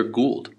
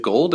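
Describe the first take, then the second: First: "Gould" with an oo, rhyming with cooled; oo vowel. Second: "Gold" with a long o, like the metal. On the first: Host offering the other option, "Gould" with an oo. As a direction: say "Gould" as gooled. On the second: Host asking which name is right, "Gold" with a long o. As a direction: say "Gold" rhyming with old. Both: Shown as a demonstration. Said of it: "is it Gold or Gould".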